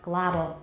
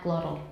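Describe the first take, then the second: First: The middle t is a quick d-like tap. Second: The middle t is not a tap. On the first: The speaker calls it right. "I say ah, glottal; 那个 t 是个 tap" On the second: The speaker calls it wrong. "not glottal"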